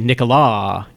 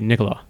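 First: The name is said with an exaggerated pitch. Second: The name is said with an even pitch. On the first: The speaker calls it wrong. "But they say Nicola, and they're doing too much" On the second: The speaker calls it right. "it's not a tonal language, so it's not, it'd just be Nicola"

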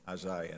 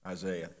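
First: The name has a British-style pronunciation. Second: The name has an American-style pronunciation.

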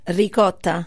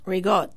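First: It is said with an Italian accent. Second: It is said with a Brooklyn Italian accent.

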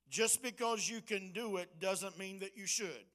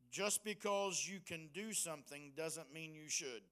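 First: It is said loudly. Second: It is said at normal volume.

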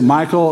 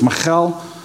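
First: The name is pronounced the English way. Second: The name is pronounced the Hebrew way. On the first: "I guess you could say Michael" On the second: "In Hebrew, it's Michal"

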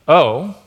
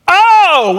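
First: It is said like a question, rising. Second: It is said like an exclamation, forcefully.

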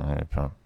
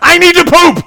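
First: It is said very quietly and timidly. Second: It is shouted very loudly.

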